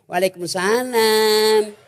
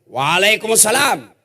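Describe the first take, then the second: First: The voice is soft, sweet and seductive. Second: The voice is plain and not seductive.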